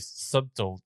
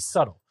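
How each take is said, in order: First: The word is said with the b sounded. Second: The word is said with a silent b. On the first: "I want to say subtle" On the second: "I don't want to say subtle"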